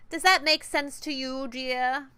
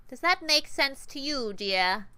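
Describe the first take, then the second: First: Higher, louder British menace; syrupy British threat to the player; British boss voice. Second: Higher, slow, sugary grinding menace; sweet, nasal and grinding. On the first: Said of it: "interesting to Huds". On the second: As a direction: sweeten the threat until it grinds. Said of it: "Sweet, nasal, and grinding". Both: Acted.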